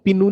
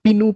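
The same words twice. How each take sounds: Both takes have the same delivery.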